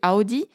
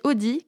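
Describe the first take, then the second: First: It is pronounced the German way. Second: It is pronounced the French way. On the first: The speaker calls it right. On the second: The speaker calls it wrong.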